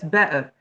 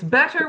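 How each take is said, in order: First: It is said in a Cockney accent. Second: It is said in a received pronunciation accent. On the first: "but with Cockney, it's better" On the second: "it's better with received pronunciation"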